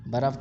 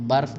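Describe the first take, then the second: First: برف as "baraf", two syllables; Urdu-style pronunciation. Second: برف as "barf", one syllable; Persian pronunciation. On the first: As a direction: say برف with a vowel after the r. (برف کو "بَرَف" بولیں، ر پر زبر) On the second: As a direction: say برف with r straight into f. (برف کو "بَرْف" بولیں، ر ساکن) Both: Shown as a demonstration. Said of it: "برف کو برف بھی بولتے ہیں".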